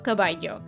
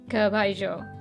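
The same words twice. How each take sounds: First: It is said with a non-Argentine accent. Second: It is said with an Argentine accent. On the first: "Pero yo digo caballo" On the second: "my really good friend from Argentina says caballo"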